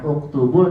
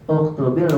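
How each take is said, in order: First: The word ends with a linking 'u' vowel. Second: The word ends with a linking 'i' vowel. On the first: The speaker calls it wrong. "Bukan uktubul" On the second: The speaker calls it right.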